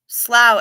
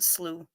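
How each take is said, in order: First: The vowel rhymes with cow. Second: The vowel rhymes with flu. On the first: "it's pronounced slough as in plow" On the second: "I pronounced it slew as in flu"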